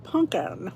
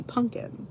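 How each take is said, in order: First: Pumpkin said "punkin", slowly; Philly pumpkin. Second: Pumpkin said "punkin"; regional pumpkin. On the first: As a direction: stretch out "punkin". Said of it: "I said pumpkin". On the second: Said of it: "when I say pumpkin". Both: Shown as a demonstration.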